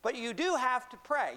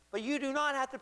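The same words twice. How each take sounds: First: "do" punched high and louder; stress on DO. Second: "not" punched high in "do not"; stress on NOT. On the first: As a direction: lean hard on "do" to insist. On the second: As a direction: hit the word "not" firmly. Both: Real, not acted. Contrasts not required with required.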